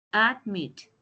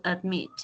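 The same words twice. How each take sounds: First: "Admit" drawn out in its two syllables, ad-mit. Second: Said in the usual way. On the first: Shown as a demonstration. Teacher showing the two syllables, "Admit" split as ad-mit. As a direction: say "Admit" slowly, separating ad and mit. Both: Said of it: "Syllable one, syllable two".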